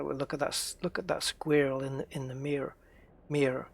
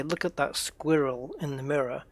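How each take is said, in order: First: SQUIRREL and MIRROR squashed to one syllable each; American pronunciation. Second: SQUIRREL and MIRROR each in two syllables; British pronunciation. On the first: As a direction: imitate American squirrel and mirror, "skwurl", "meer". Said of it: "you guys would be saying". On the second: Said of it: "if I was to say". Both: Shown as a demonstration.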